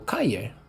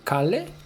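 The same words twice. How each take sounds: First: The double L sounds like a Y. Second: The double L sounds like an L. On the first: The speaker calls it right. "double L in Spanish is pronounced as Y" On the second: The speaker calls it wrong. "You don't say calle"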